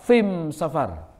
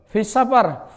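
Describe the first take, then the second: First: The article is pronounced with an M sound. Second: The article is pronounced with an S sound.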